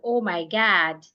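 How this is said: The vowel in God is an open American ah. "if an American wants to say the word God, you hear them say"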